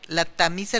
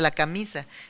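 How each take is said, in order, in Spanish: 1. La palabra empieza con sonido T. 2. La palabra empieza con sonido K. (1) "la tamisa en lugar de la camisa" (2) "en lugar de la camisa"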